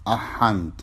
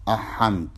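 Both takes have the same delivery.

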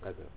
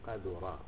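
First: The word is voiced as a noun form. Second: The word is voiced as a past-tense verb. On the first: It is dirty by nature. "اللي هو اسم" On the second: It has become dirty. "نقرأ هذه الرواية فعل ماضي"

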